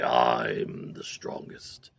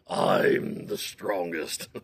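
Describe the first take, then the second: First: Slow, low whispered boast. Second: Slow, low bear boast. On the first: Bear boasting to himself in a slow low whisper. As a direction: breathe it out slowly like a smug bear. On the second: Bear boasting to the forest, slow and low. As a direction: draw it out smugly. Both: Acted.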